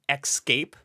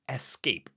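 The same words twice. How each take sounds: First: The word begins with an 'ex' sound. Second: The word begins with an 'es' sound. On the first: The speaker calls it wrong. "I grew up always saying escape, like E X" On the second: The speaker calls it right. "So now I try really hard"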